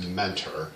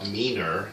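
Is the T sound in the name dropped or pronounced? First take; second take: pronounced; dropped. First: The T sound in the middle is pronounced. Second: The T sound in the middle is dropped. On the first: This is the standard way to say the name. "it's Mentor" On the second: This is how local people say the name. "the locals call it meaner. They don't pronounce the T"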